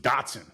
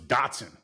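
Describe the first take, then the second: First: It is said with an American pronunciation. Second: The same.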